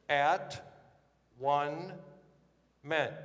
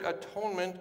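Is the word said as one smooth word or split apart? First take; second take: split apart; one word. First: It is split into three separate parts. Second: It is said as one smooth, ordinary word.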